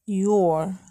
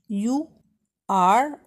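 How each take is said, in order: First: It is contracted into a single syllable. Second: It is said as two full separate words.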